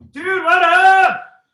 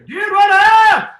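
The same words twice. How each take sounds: First: It is said at a lower pitch. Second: It is said at a higher pitch.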